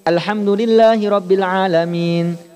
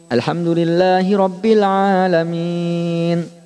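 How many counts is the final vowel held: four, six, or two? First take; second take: two; four. First: The vowel before the final n is held two counts. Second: The vowel before the final n is held four counts. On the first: "Ini dua semuanya, Pak" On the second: "Atau ambil empat"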